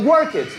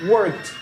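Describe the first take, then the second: First: The ending is an extra syllable, like 'id'. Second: The ending is a short t sound. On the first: The speaker calls it wrong. "the pronunciation is not work it" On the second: The speaker calls it right. "The pronunciation is worked"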